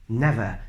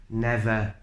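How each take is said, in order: No difference in how they are said.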